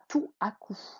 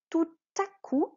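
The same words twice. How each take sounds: First: No t sound links tout to à. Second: A t sound links tout to à. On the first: The speaker calls it wrong. "On ne dit pas" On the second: The speaker calls it right. "c'est avec le T"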